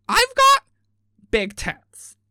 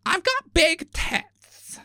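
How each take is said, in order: First: "got" squealed high and loud, then drops; mock bimbo repeat. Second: Slow, drawn-out, higher mock boast; mock bimbo boast. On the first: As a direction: repeat it louder for someone who didn't hear. Repeats louder after "What?. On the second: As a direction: stretch it out like a dim show contestant bragging.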